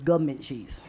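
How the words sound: The word is said in a neighborhood pronunciation.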